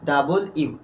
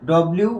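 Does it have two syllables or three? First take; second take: three; two. First: The letter name has three full syllables. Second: The letter name is squeezed into two syllables. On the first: The speaker calls it right. "উচ্চারণ হবে কি বলতো ডাবল ইউ" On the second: The speaker calls it wrong. "উচ্চারণ করছি আমরা কি বলতো"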